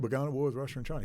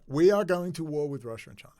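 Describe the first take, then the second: First: Fast, tossed-off quote of a general; a fast retold quote of a general; quick quote. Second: We said loud and higher, each word weighed; emphatic quote. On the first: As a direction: rattle it off quickly. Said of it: "Milley's already said". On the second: Retold or imitated. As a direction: lean hard on we, spelling out every word. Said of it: "He said it outright".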